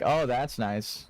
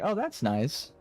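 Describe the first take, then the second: First: It is said in a sarcastic tone. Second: It is said in a sincere tone. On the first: The speaker is mocking or hostile. "that is a famously sarcastic comment" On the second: The speaker honestly means it kindly. "I genuinely am like"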